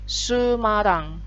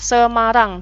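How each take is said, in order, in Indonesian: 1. Vokal pertama adalah bunyi u. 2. Vokal pertama adalah bunyi e. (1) "jadinya Sumarang" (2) "kota Semarang"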